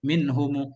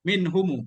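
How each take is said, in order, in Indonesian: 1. Kata ini berakhir dengan vokal u yang ditambahkan. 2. Kata ini berakhir pada konsonan m.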